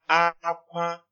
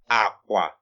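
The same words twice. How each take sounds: First: Both syllables are on a high tone. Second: Both syllables are on a low tone. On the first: It means cry. "it's high tone" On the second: It means bed. "So it's low tone at this point"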